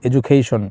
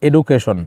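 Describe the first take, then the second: First: It is said with a native English-style accent. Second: It is said with a local Bengali-style accent. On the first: This is how people speak now, to sound advanced. "Proper ইংলিশদের মতো কথা বলা শুরু করলাম" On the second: This is how people spoke before. "আমরা আগে বলতাম এডুকেশন"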